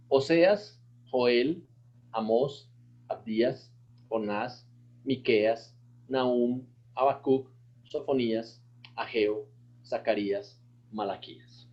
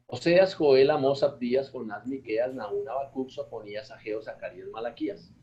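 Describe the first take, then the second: First: Each name set apart with a pause; one name at a time, carefully; slow recitation. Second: Brisk run through the names; quick recitation. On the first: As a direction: pastor slows the list so the class can follow. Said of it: "mientras más despacio lo hagan". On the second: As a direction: rattle the list off fast. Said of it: "Eso es rapidito". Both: Shown as a demonstration.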